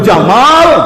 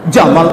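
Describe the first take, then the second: First: The second vowel is long. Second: The second vowel is short. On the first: It means handsome. "tapi kalau Jamal, ganteng" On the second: It means camel. "Jamal tuh onta"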